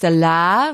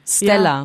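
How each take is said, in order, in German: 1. Die Betonung liegt auf der letzten Silbe. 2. Die Betonung liegt auf der ersten Silbe. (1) "Nicht Stella" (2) "bei der vorletzten Silbe"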